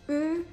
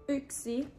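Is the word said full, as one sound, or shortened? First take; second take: one sound; full. First: Only the first sound of the word is said. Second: The whole word is said with both syllables. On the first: This is fast everyday speech. "Nopea puhekieli" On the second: This is the standard written form.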